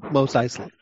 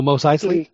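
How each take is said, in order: First: Said in the usual way. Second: Asking back with a rising tune; questioning. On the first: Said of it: "repeats the name to confirm it". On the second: Real, not acted. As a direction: check the name as a question. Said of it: "repeats the name to check it".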